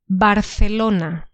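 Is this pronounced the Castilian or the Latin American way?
Castilian. It is said with a Castilian Spanish pronunciation. "First one"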